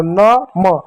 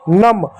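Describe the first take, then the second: First: न and म as two separate syllables; letter by letter. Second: नम joined as one syllable; blended word. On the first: Teacher spelling out for children before blending, separate न, म. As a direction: sound out न, then म. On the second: Teacher showing children the joined word, blended नम. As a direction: run the letters together into नम. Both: Shown as a demonstration. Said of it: "एक साथ बोलो".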